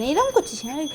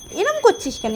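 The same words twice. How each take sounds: First: Soft mock scold. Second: High mock scold. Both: Real, not acted.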